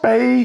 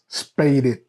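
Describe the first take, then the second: First: The word is said with one syllable. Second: The word is said with two syllables. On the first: The speaker calls it right. "either the female is spayed" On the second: The speaker calls it wrong. "They say the female was spaded. That's not how you say that"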